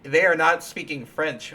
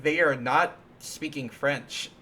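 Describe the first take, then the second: First: Louder insistent objection, a hint of a child; indignant protest. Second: Slow, puzzled kid's objection, lightly voiced; childhood protest. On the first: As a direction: push the point harder, louder. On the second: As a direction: spell it out like a confused child. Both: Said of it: "and I'd be like".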